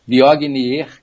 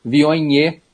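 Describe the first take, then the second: First: Viognier with hard g and final r; wrong pronunciation. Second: Viognier with gn as "nh", silent r; correct French pronunciation. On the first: Expert shows listeners the mistake, reading Viognier by spelling. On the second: Expert teaches listeners, Viognier the French way. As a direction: say Viognier as "vio-nhê". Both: Shown as a demonstration. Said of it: "É Viognier".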